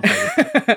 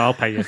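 First: High squeaky laugh through the words; laughing squeal. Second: Said in the usual way. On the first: Real, not acted. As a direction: giggle it out high. Insisting on paying, then laughing.

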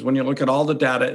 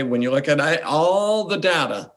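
First: Said in the usual way. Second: ALL stretched out long; stress on ALL. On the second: Real, not acted. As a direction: draw out the word ALL for weight. Weighing one verse against everything.

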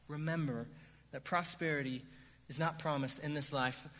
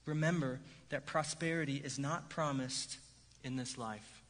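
First: "Remember", "that prosperity" and "is not promised in this life" set apart by pauses, with weight on "not"; paused emphasis. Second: Said in the usual way. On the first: Shown as a demonstration. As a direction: let each piece land, leaving a pause after "Remember" and after "prosperity". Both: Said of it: "It's this".

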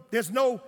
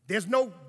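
No difference in how they are said.

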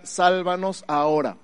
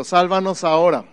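First: Slow, deliberate "Sálvanos ahora"; slow meaning. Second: "Sálvanos ahora" louder for the church to echo; call and response. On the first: Pastor explaining Osana, slow and deliberate. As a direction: spell out the meaning slowly. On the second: Pastor has the congregation repeat, a bit louder. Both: Shown as a demonstration. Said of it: "Di conmigo".

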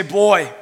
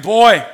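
First: Said in the usual way. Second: Put-on BOY shouted loud and higher; emphatic boy. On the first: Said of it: "everyone say". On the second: Shown as a demonstration. Preacher leading the congregation in a loud, emphatic Boy. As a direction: bark Boy like you mean it. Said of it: "Come on, say it like you mean it".

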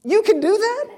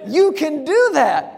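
First: High, rising squeak of disbelief; incredulous question. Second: High, falling, delighted confirmation; pitched-up, punchy affirmation; emphatic realization. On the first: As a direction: ask it as if astonished it's allowed. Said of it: "I read that and think". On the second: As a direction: answer the question with amazed certainty. Realization answering his own question. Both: Acted.

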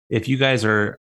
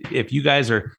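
The two takes are said the same way.

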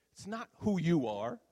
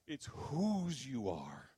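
First: "who" lifted high and loud, ending unresolved; stress on who. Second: "whose" drawn out very slowly, then falling; stress on whose. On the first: Preacher setting up his main point, "who" raised and stressed. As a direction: punch "who" higher, leave the end rising. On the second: Preacher landing his main point, "whose" slowly stretched and stressed. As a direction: stretch "whose" long and let it settle. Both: Real, not acted. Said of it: "but that point".

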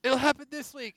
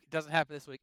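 First: High sing-song leaker claim; mocking rumor voice. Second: Said in the usual way. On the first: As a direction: mimic a smug leaker. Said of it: "Oh, direct's gonna be coming up soon".

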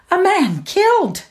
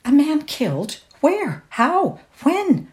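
First: High, loud shocked statement; agitated cry. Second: High, urgent shocked questions; alarmed questions. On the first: Cook blurting the death to Laura, high and loud. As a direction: blurt out the news. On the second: Laura questioning the cook in shocked alarm. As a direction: demand to know at once. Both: A narrator's reading.

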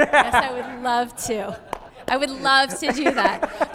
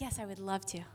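First: Louder, slow and cheerful; bright and willing. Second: Much softer, through gritted teeth; grudging. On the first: Shown as a demonstration. Mother answering kids' demands, slow and cheerful. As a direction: say it like you truly mean it. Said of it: "I say it until I believe it". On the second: Retold or imitated. Tired mother to interrupting kids, softly grudging. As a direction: mutter it like a reluctant chore. Forced reply to kids' interruptions.

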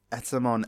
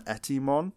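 First: Said in the usual way. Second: "Etimon" with an ee sound in the middle; mispronounced name. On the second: Retold or imitated. Quoting Joe's wrong name for the villain, "Etimon" mispronounced. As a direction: say "Etimon", middle vowel changed to ee. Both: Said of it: "Joe calls Etamon Etimon".

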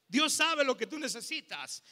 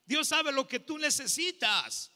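No difference in how they are said.

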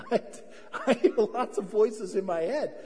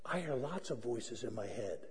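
First: Amused repeat through real laughter; laughing. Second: Low, soft mock confession; hushed confession. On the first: Real, not acted. Pastor repeats his confession to the congregation, laughing. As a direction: laugh while owning up to it. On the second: Pastor confesses to the congregation, hushed. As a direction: confide it quietly, as if vulnerable.

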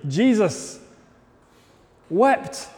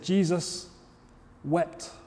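First: Said in the usual way. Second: Soft, slow and hushed, letting each word sink in; almost whispering the verse; hushed reverence. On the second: Acted. Preacher reads the verse to his congregation in a hushed voice.

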